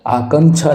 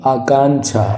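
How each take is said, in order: First: आकांक्षा with short "a" in the middle; wrong short middle vowel. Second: आकांक्षा with long "aa" in the middle; correct long middle vowel. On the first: Teacher rejects this आकांक्षा, short middle vowel. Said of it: "आकांक्षा नहीं होता भाई". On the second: Teacher gives the correct आकांक्षा, long middle vowel. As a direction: say आकांक्षा as "aakaanchha". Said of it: "आकांक्षा ये शुद्ध होगा". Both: Shown as a demonstration.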